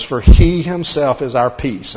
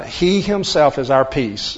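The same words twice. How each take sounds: First: "he" hit hard at the start, the line slow and louder; slow, emphatic "he himself"; stress on he. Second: "He" pushed first, the rest slow and weighted; measured, emphatic "He himself"; stress on he. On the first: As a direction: lean on "he", then let "is our peace" fall. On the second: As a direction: start strong on "He himself", then slow down. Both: Shown as a demonstration. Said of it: "that's where the emphasis is".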